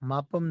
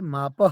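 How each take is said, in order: First: The word ends with an m sound. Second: The word ends with a breathy h sound. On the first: The speaker calls it wrong. "मापम नहीं है" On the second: The speaker calls it right.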